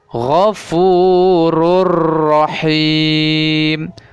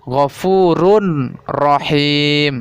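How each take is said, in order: First: The n merges into a doubled r sound. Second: The n is pronounced before the r sound. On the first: The speaker calls it right. "di sini terjadi idgham bila gunnahnya" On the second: The speaker calls it wrong. "bukan ghafurun rahim. Salah seperti itu ya"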